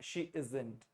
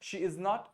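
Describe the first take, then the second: First: "Is not" is contracted into one quick word. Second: "Is not" is said as two full words. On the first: "इजेंट से क्या थोड़ी सी हमारी और fluency बनती है क्योंकि हम जल्दी जल्दी बोलते हैं" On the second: "बहुत लोग इजेंट बोलते नहीं है, और बोलते नहीं तो इज नॉट इज नॉट बोलते हैं"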